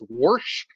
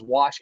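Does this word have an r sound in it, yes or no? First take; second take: yes; no. First: The word is said with an added r sound. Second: The word is said without an r sound. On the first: "wash as wash" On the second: "pronounces wash"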